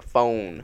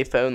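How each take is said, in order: First: "phone" with a drawn-out North Carolina vowel; North Carolina pronunciation. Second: Said in the usual way. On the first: Shown as a demonstration. Co-host showing how cousins say it, "phone" in North Carolina accent. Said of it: "They say it like phone". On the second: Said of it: "they can't say phone like phone".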